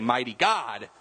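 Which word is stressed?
God. The stress falls on the word God. The focus is on his being God. The speaker calls it wrong. "We don't say"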